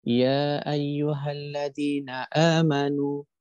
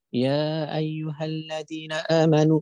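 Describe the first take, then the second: First: Said in the usual way. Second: Slow, higher, voice near to tears; tearful recitation. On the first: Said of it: "kita baca". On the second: Shown as a demonstration. Preacher shows how the pure-hearted recite, tearfully. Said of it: "bunyinya begini".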